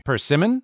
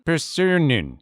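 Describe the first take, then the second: First: Said in the usual way. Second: "persimmon" said like "persunnun"; imitating her "persimmon" with muddled middle; Chinese accent. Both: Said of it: "her pronunciation of English words".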